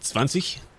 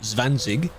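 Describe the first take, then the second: First: The final g is not said as hard g. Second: The final g is said as hard g. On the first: The speaker calls it right. "you don't say the G" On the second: The speaker calls it wrong. "Not, not zwanzig"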